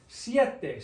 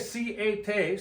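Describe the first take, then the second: First: The two vowels blend into one syllable. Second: The two vowels are split into separate syllables. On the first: The speaker calls it right. "It's a two syllable word" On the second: The speaker calls it wrong. "We don't say siete"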